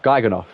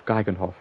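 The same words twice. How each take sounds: First: Geigenhof with a silent H, ending "-off"; H dropped. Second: Geigenhof with an audible H in "hof"; H pronounced. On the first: Gamer asking chat how to say it, "Geigenhof" with no H. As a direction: leave out the H in "Geigenhof.". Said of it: "should I not say the H". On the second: Gamer trying out a Dutch name, "Geigenhof" with the H sounded. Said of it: "You say the H". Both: Shown as a demonstration.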